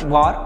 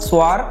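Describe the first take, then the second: First: The word begins without an s sound. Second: The word begins with an s sound.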